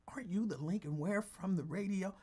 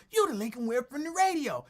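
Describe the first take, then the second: First: Imitating Jimmy. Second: Imitating Jimmy calling. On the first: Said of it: "Jimmy the Vet would say that". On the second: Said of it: "Jimmy calling".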